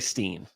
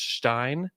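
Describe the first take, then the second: First: The vowel sounds like 'ee'. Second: The vowel sounds like 'eye'. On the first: The speaker calls it wrong. "Just don't say Steen" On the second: The speaker calls it right. "the correct way to say it is Stein"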